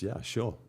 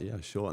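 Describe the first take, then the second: First: Light, high, casual yes; carefree agreement without a plan; breezy yes. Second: Same light, casual yes; easy yes though unprepared; breezy yes. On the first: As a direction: toss off an easy yes. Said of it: "And it was". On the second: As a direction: shrug it off with a yes. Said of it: "I was like". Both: Retold or imitated.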